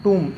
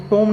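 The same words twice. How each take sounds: First: टूम with long "oo", silent B; correct pronunciation. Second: टोम with an "o" vowel; wrong pronunciation. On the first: Teacher gives the right reading, टूम with "oo". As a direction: round the vowel to "oo" and end टूम on M. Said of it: "इसको क्या पढ़ते हैं". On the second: Teacher warns against misreading, टोम with "o". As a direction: say टोम with "o" where "oo" belongs. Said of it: "इसको टोम नहीं पढ़ेंगे". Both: Shown as a demonstration.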